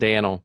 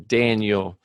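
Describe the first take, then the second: First: The middle of the name has no 'yeah' sound. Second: The middle of the name sounds like 'yeah'. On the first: The speaker calls it wrong. "not Daniel" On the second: The speaker calls it right. "I have to purposely say Daniel"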